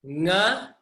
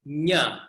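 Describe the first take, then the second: First: "Nga" with the back of the tongue; correct nga. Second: "nya" with the tongue on the palate, like niño; palatal nya. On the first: Teacher contrasts the correct nga. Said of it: "here's the other one". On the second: Teacher models the wrong nya for contrast. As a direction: say "nya" like Nunez. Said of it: "The second one was nya". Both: Shown as a demonstration.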